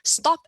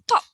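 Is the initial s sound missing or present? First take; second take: present; missing. First: The word begins with an s sound. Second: The word begins without an s sound. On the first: "Stop as top" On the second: "Stop as top"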